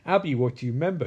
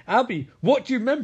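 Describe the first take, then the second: First: Said in the usual way. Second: Higher, quick pressing question; mock insistence. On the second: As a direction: press for an answer in acted impatience. Repeated question, growing insistent.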